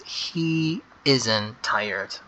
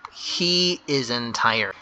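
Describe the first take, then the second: First: Drawn out word by word for the class; teacher repeating the answer, very slow; very slow dictation. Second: Spelled out slowly for the class; teacher dictating an answer, slow; slow dictation. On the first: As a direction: stretch every word as if writing it. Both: Shown as a demonstration. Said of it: "make sure to start with the big H".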